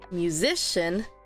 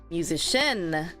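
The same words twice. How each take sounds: First: The stress is on the second syllable. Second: The stress is on the last syllable. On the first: The speaker calls it right. "If I stress the second one" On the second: The speaker calls it wrong. "And in the end"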